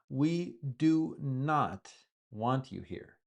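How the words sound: Each word is separated and said emphatically.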